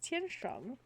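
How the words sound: The name has a Chinese pronunciation with tones. "I never know if I should say it with the Chinese pronunciation"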